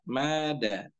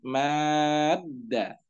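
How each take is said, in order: First: The long vowel is held for two counts. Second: The long vowel is held for six counts. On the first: "ini maknya dua harokat" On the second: "dibaca enam harokat"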